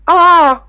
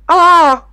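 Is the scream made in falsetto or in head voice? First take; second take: head voice; head voice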